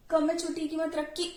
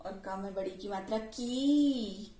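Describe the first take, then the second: First: Final की cut short; short ee in the last की; short vowel. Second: Final की stretched long; long vowel. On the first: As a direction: end on a quick, brief की, higher pitched. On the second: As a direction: hold the last की right out. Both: Shown as a demonstration. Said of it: "कैसे pronounce करेंगे".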